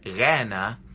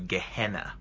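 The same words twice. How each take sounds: First: It is said with a Greek pronunciation. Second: It is said with an English pronunciation. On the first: "Gehenna is Americanized into" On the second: "Americanized into Gehenna"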